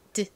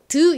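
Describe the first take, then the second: First: The syllable is said lightly and softly. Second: The syllable is said forcefully and loudly. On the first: The speaker calls it right. "약하게 드" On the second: The speaker calls it wrong. "너무 드 이렇게 세게 하지 않고"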